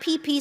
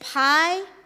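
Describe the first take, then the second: First: It is said as pee-pee. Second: It is said as pie-pee-eye. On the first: The speaker calls it wrong. "not P P. Some Americans say P P" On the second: The speaker calls it right. "It is pi, P I"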